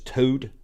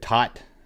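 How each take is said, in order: First: The name has a long vowel and ends in 'd'. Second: The name has a short vowel and ends in 't'. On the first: This is how others were heard saying it. "but then I heard it was Toad" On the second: This is how it was said in childhood. "We always said Tot when we were little"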